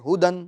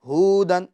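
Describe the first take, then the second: First: The first vowel is kept short. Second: The first vowel is drawn out long. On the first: The speaker calls it right. "बल्कि हुदन" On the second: The speaker calls it wrong. "ये पेश खींच ना जाए, यानी हुदन, हुदन ये गलत"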